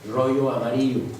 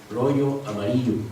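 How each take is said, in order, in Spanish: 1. El sonido y en amarillo es suave y ligero. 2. El sonido y en amarillo es suave y ligero.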